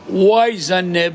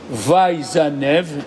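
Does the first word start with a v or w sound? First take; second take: w sound; v sound. First: The first word starts with a w sound. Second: The first word starts with a v sound. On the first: This is the second reading, done for the alternate tradition. "le Vav, on le prononce Wa" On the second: This is the normal reading as it was learned. "La première fois, il est Va Izanev"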